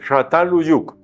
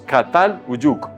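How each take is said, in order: First: The word begins with a soft sh sound. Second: The word begins with a hard K sound. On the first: This is the original Turkish pronunciation. "este es muy suave, parecido a la S, casi como la S" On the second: This is how Spanish speakers say it. "Nosotros lo pronunciamos Catal Uyuk"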